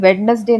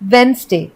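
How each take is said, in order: First: The middle d sound is pronounced. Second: The middle d sound is silent. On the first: The speaker calls it wrong. "लेकिन वेडनेसडे नहीं होता है" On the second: The speaker calls it right. "Actually में इसे हम बोलते हैं वेंसडे"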